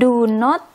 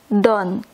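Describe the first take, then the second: First: Two separate full words are said. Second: One short contracted word is said. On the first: "Ini dua kata do, ada spasi atau jarak, terus not" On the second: "Kalau versi singkatnya, dibacanya don't"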